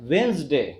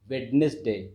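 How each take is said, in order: First: The middle d is silent, giving two syllables. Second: Every letter is sounded, giving three syllables. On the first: The speaker calls it right. "आप इसको pronounce करते हैं क्या बोलते हैं" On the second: The speaker calls it wrong. "जिसको बहुत सारे लोग अभी भी वेडनेसडे बोलते हैं"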